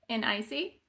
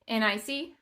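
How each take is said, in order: No difference in how they are said.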